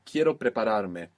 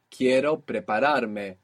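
First: Said in the usual way. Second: Slow model. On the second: Shown as a demonstration.

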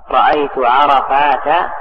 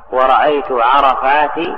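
First: عرفات ending in open "-ta"; fatha ending. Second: عرفات ending in plain "-ti"; kasra without tanween. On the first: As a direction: slowly say عرفات as "arafaata". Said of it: "بالفتح". (عرفات بالفتح بلا تنوين) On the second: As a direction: slowly say عرفات as "arafaati", no final n. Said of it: "بالكسر على الأصل لكن بدون تنوين". (عرفات بالكسر بلا تنوين) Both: Shown as a demonstration.

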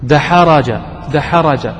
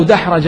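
First: دحرج said daħaraj, four vowelled letters; دحرج read da-ha-ra-ja to show the heaviness; with fatha on the ha. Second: دحرج said daħrajj, ha unvoweled; teacher pronounces دحرج as daħraj, silent ha; with sukun on the ha. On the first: Teacher voices دحرج with fatha to show it is heavy. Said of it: "ضع عليها فتحة وانطق الكلمة". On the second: Teacher shows students دحرج with sukun on ha. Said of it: "تخيل لو دحرج ما فيها سكون". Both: Shown as a demonstration.

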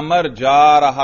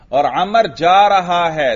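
First: جا punched louder to show the wrong translation; stress on جا. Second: جا lifted and louder as the better translation; stress on جا. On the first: Teacher stressing جا to correct a student's translation. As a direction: hit جا to flag the mistake. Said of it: "اس طرح کا ترجمہ نہ کریں". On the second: Teacher stressing جا to show the right translation. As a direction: lean on جا to show the right sense. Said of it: "Urdu میں لگتا ہے یا نہیں". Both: Shown as a demonstration.

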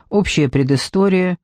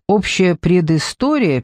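First: Said in the usual way. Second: Slow, questioning echo of «Общая предыстория». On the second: A narrator's reading. Narrator asks the commissioner back, questioning «Общая предыстория» slowly. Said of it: "переспросила я".

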